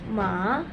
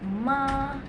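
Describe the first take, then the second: First: The pitch rises from middle to high. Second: The pitch stays high and level. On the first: It means hemp. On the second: It means mother.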